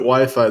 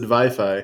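First: The word has its usual English pronunciation. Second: The word has a German-style pronunciation. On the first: The speaker calls it wrong. "Germany doesn't pronounce it Wi-Fi" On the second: The speaker calls it right. "They pronounce it Wi-Fi"

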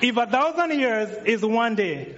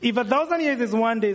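First: It is said slowly and carefully. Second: It is said at a faster pace.

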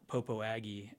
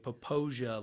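First: The name ends with the sound 'Aggie'. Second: The name ends like the word Fantasia. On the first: The speaker reads the name as it is spelled. The speaker calls it wrong. "And not Popo Aggie as it's spelled" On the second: The speaker sounds like a local. The speaker calls it right. "they have to say Popoja like Fantasia"

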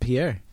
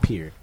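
First: It is said the French way, like the name. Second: It is said like the English word pier. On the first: The speaker calls it wrong. "I grew up calling it Pierre" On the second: The speaker calls it right. "it's Pierre"

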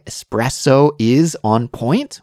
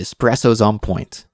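First: The word "is" is said fully and separately. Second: The word "is" is contracted onto "espresso".

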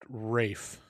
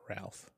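First: It sounds like 'Rafe', with no L sound. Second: It sounds like 'Ralph', with an L sound. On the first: The speaker calls it right. "I believe it's pronounced Rafe" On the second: The speaker calls it wrong. "not Ralph"

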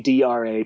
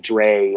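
First: It is spelled out as separate letters. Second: It is said as a single word. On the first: It sounds like a baseball statistic. The speaker calls it right. "it is DRA, and in the sense of ERA and RA9" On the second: It draws puzzled looks from listeners. The speaker calls it wrong. "people are going to give you funny looks"

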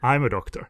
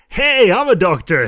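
First: It is said flatly, matter-of-fact. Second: It is said with hammy excitement.

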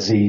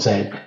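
First: The letter is said the American way, 'zee'. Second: The letter is said the British way, 'zed'.

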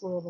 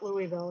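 First: The word is said with two syllables. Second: The word is said with three syllables. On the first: The speaker calls it right. "there's only two" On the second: The speaker calls it wrong. "It's not Louisville"

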